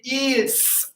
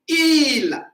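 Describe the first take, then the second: First: The word ends with an audible s sound. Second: The word ends without any s sound. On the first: The speaker calls it wrong. "We don't say is" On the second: The speaker calls it right. "so we say still il"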